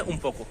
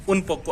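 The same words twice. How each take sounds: First: उन said as um, lips closing into पोको; n turns to m before p. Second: उन पोको with a clear N sound; plain n before p. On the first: Teacher shows the native Spanish way, n becomes m. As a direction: blend उन पोको into um poko. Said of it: "मैं उन पोको नहीं बोल रहा हूँ". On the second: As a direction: say उन with a plain n, slowly. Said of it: "कभी भी जब हम स्पीड से पढ़ते हैं". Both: Shown as a demonstration.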